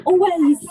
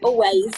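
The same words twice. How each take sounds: First: Always said higher and louder, stretched; emphatic repeat. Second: Said in the usual way. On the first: Real, not acted. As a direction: hit Always hard and high.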